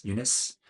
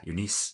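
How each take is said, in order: First: "Eunice" said as YOO-nuss; second-guessed pronunciation. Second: "Eunice" said as yoo-NEES; unsure pronunciation. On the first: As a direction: say "Eunice" with a weak, neutral last vowel. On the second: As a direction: say "Eunice" with a long "ee" in the last syllable. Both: Shown as a demonstration. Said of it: "if I'm saying their names right".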